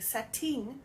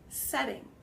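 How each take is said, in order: First: The middle consonant is a crisp T. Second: The middle consonant is a soft D-like sound. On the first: "Instead of saying setting" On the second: "It has that soft T or D sound"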